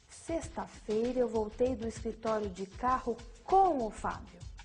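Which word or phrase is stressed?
com o Fábio. The stress falls on "com o Fábio". It tells who came along. "A ênfase no com o Fábio indica a companhia"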